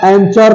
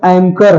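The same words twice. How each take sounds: First: एंचर with a "ch" sound; wrong pronunciation. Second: Said in the usual way. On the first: Shown as a demonstration. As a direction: put ch in place of k in एंचर. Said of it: "तो है नहीं". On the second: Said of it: "एच का बिल्कुल भी sound नहीं है".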